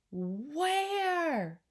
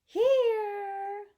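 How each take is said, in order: First: High, long, swooping question; father's baffled, raised call; exasperated call. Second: Very high, loud, long held call; piping shout. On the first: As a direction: stretch it out in bewilderment. Father searching, growing frantic. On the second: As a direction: sing out from nowhere. Invisible boy's last, biggest answer. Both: Acted.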